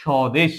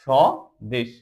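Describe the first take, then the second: First: Said in the usual way. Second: স্বদেশ broken as "sho... desh", silent ব; স্বদেশ with a gap after the first syllable; split into syllables. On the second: Shown as a demonstration. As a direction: say স্বদেশ in two parts, sho, then desh. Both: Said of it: "আমরা এই ব এর উচ্চারণ করব".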